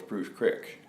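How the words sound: Creek is pronounced the way locals say it. The speaker is from the town. "if you lived there, you call it Spruce Creek"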